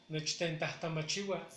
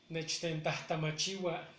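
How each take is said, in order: Both takes have the same delivery.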